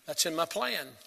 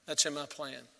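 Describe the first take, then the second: No difference in how they are said.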